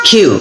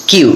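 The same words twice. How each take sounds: First: "কিউ" opened with a puffed kh; aspirated Q. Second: "কিউ" with a plain k, no puff; unaspirated Q. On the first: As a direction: say "কিউ" as khiu, air after the k. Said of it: "মানে খ উচ্চারণ হবে". ("কিউ" খ দিয়ে মহাপ্রাণ উচ্চারণ) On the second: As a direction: say "কিউ" with an unaspirated k, the common mistake. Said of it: "অনেকে বলে এটা কি কিউ". ("কিউ" অল্পপ্রাণ ক দিয়ে, ভুল উচ্চারণ) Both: Shown as a demonstration.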